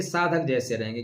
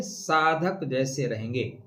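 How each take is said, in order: First: Said in the usual way. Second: Drawn-out, word-by-word answer; slow right down to drive the phrase home; slow emphatic repeat. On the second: Real, not acted. Repeats answer to own question.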